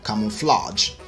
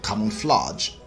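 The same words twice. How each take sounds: First: It is said in a Nigerian accent. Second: The same.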